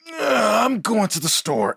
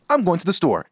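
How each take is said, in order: First: It sounds groggy, like just out of bed. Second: It sounds flat, read plainly as written.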